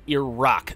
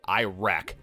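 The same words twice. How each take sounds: First: The first vowel is short, like 'ih'. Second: The first vowel sounds like 'eye'. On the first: This is how locals say it. The speaker calls it right. "That's how they pronounce it there" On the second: This is an outsider's mispronunciation. The speaker calls it wrong. "It sounds like something Apple would make"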